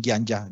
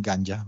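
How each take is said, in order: First: GANJA as 'gyan-ja'; wrong palatalized form. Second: GANJA as 'gan-ja', plain hard 'g'; softer, lower GANJA without glide; unchanged Hindi form. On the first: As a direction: say GANJA with 'gy' onset. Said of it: "ellos no dicen". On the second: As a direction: say GANJA with no 'y' after 'g'. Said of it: "dicen ganja". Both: Shown as a demonstration.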